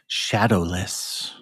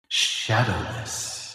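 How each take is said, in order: First: The word sounds dry with no echo. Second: The word has an added echo effect.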